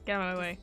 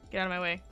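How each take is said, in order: Both takes have the same delivery.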